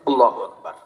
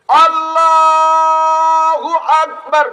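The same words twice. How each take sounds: First: It is said short and quickly. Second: It is drawn out and stretched slowly.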